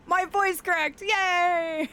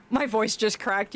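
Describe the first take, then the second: First: A higher, bright little cheer about the crack; celebrating cheer. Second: Said in the usual way. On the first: Shown as a demonstration. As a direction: sell "cracked" as good news. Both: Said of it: "The voice cracks are to be celebrated".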